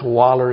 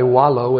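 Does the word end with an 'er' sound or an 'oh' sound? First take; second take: er; oh. First: The word ends with an 'er' sound. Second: The word ends with an 'oh' sound. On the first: "But if you're in Alabama" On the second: "if we want to be correct in our pronunciation"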